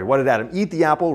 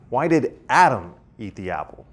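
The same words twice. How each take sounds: First: The stress falls on the word eat. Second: The stress falls on the word Adam. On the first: Why this action rather than another action. "rather than, say, like throw it or carve something clever into it" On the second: Why this person rather than someone else. "rather than some other person?"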